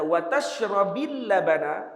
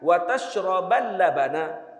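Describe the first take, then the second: First: The verb ends with an i vowel. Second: The verb ends with an a vowel. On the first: Both eating fish and drinking milk are forbidden. "maknanya dua-dua dilarang" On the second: Do not eat fish and drink milk together. "Waw tu waw ma'iyah"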